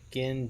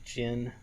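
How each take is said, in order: First: The name starts with a hard G sound. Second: The name starts with a J sound.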